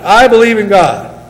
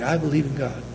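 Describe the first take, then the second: First: It is said loudly. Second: It is said quietly.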